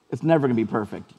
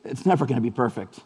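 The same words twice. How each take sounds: First: "never" again with emphasis, a little faster; repeated stress on never. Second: It's "never" going to be perfect, said calmly and firmly; stress on never. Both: Retold or imitated. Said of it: "And the guy just said".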